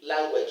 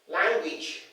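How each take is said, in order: First: The vowel is said as an A sound. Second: The vowel is said as an E sound. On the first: The speaker calls it wrong. "not A sound" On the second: The speaker calls it right. "the E sound"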